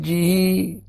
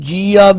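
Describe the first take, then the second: First: The word is one syllable with a lengthened vowel. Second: The word is said with an added 'aa' syllable. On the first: The speaker calls it right. "ਜੱਜੇ ਨੂੰ ਜੋ ਬਿਹਾਰੀ ਹੈ ਉਹਨੂੰ ਥੋੜਾ ਜਿਹਾ ਲਮਕਾ ਕੇ ਬੋਲੋ" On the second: The speaker calls it wrong. "ਕੁਝ ਪ੍ਰੇਮੀ ਇਹਨੂੰ ਜੀ ਆ ਵੀ ਬੋਲਦੇ ਨੇ, ਨਹੀਂ, ਉਹ ਉਚਾਰਨ ਅਸ਼ੁੱਧ ਹੈ"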